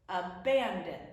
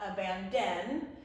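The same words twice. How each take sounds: First: The stress falls on the middle syllable. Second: The stress falls on a syllable other than the middle. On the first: The speaker calls it right. "It's abandon" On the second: The speaker calls it wrong. "It's not abandon"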